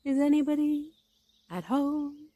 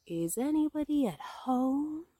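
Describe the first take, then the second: First: High, sustained call into a hole. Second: High, drawn-out call with little added volume; calling out insistently. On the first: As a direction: call to see who is in. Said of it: "put his head through the hole and called out". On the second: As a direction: repeat the call slowly, stretching it out. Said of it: "called Pooh very loudly". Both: A narrator's reading.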